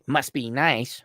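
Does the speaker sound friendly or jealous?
jealous. It sounds resentful and jealous. The speaker resents the other person's luck.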